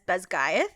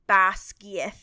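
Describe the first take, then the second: First: The name follows the audiobook's pronunciation. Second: The name follows a Gaelic-style pronunciation. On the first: "the audiobook pronounces it as" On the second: "the Gaelic is something more similar to"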